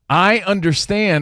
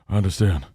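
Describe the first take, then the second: First: It is said clearly in a normal voice. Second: It is said low, deep and mumbled. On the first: It makes the words easy to understand. "translation, because I don't know if you could hear in that lower octave" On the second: It imitates how someone else said it. "he was sort of mumbling when he said it"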